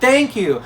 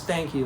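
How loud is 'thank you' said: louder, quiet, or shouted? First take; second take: shouted; quiet. First: It is shouted at full, loud volume. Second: It is said at a normal, quiet volume.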